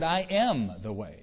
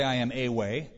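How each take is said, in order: First: Slow, weight landing on "the way"; stress on the way. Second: Said in the usual way. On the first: Shown as a demonstration. Correcting the wrong quote, slow stress on "the way". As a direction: say "I am the way" slowly, leaning on "the". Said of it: "He said". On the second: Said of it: "He didn't say".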